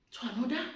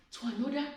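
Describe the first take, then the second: No difference in how they are said.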